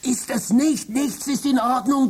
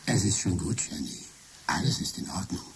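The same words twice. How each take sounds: First: Much higher, desperate protest; frantic. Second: Much softer, lower and calm fake Michael; computer faking Michael. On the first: Acted. Trapped Michael shouting to his wife, frantic and high. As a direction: break in, panicked, to warn her. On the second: Computer as Michael calming Jenny, soft and low. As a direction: soothe the wife in a borrowed voice. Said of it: "Ich kann deine Stimme imitieren".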